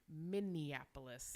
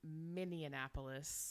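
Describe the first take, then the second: First: The word has its usual number of syllables. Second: The word has an extra added syllable. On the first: The speaker calls it right. "It's Minneapolis" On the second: The speaker calls it wrong. "which is not correct"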